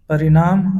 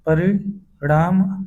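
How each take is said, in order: First: परिणाम with plain dental n; परिणाम with न instead of ण. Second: परिणाम with retroflex ṇ, drawn out; slow, careful परिणाम with ण. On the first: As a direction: say परिणाम as parinaam. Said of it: "अशुद्ध है". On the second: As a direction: curl the tongue back for the ṇ in परिणाम. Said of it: "शुद्ध है". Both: Shown as a demonstration.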